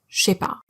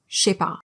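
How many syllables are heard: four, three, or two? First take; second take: two; two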